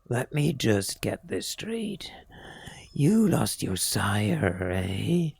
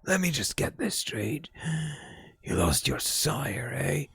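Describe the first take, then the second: First: The voice is smooth, without rasp. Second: The voice is very raspy and rough. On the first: The speaker calls it wrong. "No, that's not his voice" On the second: The speaker calls it right. "he had a very raspy voice"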